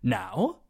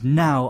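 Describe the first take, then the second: First: The pitch dips low, then rises quickly. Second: The pitch falls quickly from high to low. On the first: "it starts in the middle, it goes down, then it goes back up again really quickly" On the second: "It is a falling tone. It goes from very high to very low very quickly"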